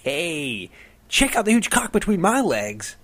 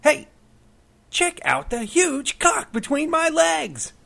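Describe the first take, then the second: First: High, loud goofy yell; mock prankster shout. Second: Much higher, louder and slow; slow high loud yell; mock prankster shout. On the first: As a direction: shout it up like a showoff on a statue. Prankster yelling from chicken statue. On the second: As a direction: stretch it out in a high hooting yell. Prankster yelling again, hallucination.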